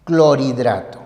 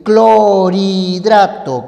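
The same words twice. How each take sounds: First: "Clorhidrato" más grave y sin alargar, como clor-hidrato; separación ortográfica. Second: "clorhidrato" lento y fuerte, clo-ri-drato; pronunciación silabeada. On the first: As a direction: di "Clorhidrato" sereno, marcando clor y luego hidrato. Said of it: "debes hacerlo de esta manera". ("Clorhidrato" en tono bajo, clor / hidrato) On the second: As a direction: alarga "clo" y "ri" en "clorhidrato", con la r unida a la i. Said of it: "Porque tú dices así". ("clorhidrato" estirado y en voz alta, clo-riii-drato) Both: Shown as a demonstration.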